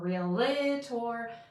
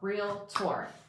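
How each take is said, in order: First: An extra vowel comes between real and tor. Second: It has two syllables, real and tor. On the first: The speaker calls it wrong. "There's no I in there anywhere. It's not realtor" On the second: The speaker calls it right. "like real, R E A L T O R, Realtor, like doctor"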